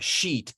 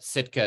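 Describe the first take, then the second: First: It is said with the native-language pronunciation. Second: It is said with the English pronunciation.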